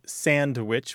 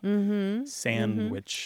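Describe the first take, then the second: First: It is said the standard way, ending in witch. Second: It is said with no d sound after the n. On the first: "which is standard" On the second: "sandwich without the D"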